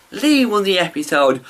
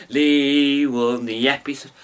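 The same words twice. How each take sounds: First: Excited announcement. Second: Said in the usual way. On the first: Real, not acted. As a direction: announce the winner with delight. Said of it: "but no!".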